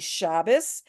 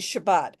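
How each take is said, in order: First: It ends with an S sound, Ashkenazi style. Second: It ends with a T sound, Israeli style.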